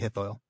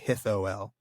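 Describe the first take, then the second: First: The vowels blend into an oi diphthong, two syllables. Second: The vowels are split into three syllables. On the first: The speaker calls it right. "Say hithoil" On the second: The speaker calls it wrong. "don't say it in three syllables. Don't say hithoel"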